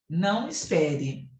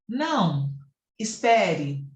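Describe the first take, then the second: First: There is no pause after não. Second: There is a pause after não.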